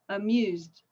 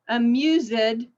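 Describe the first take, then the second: First: The ending is a plain d sound. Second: The ending is said as an extra syllable. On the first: The speaker calls it right. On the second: The speaker calls it wrong.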